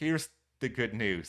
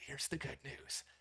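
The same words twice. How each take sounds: First: It is said in a normal voice. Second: It is said in a whisper.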